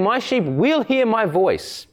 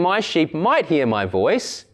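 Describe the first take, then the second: First: Higher-pitched line, hit "will" with certainty; "will" stressed as a sure promise. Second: "might" singled out as a mere maybe; stress on "might". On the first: Preacher correcting the doubtful reading, firm stress on "will". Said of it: "There is no ambiguity in this". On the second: Preacher rejecting a doubtful reading to the congregation, stress on "might". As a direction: lean on "might" as the doubtful word. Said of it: "Jesus is not saying". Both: Shown as a demonstration.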